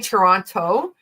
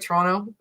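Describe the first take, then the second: First: The second T sound is clearly pronounced. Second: The second T sound is dropped. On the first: This is how visitors say it. "you say Toronto" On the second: This is how locals say it. "we say it with no T at the end"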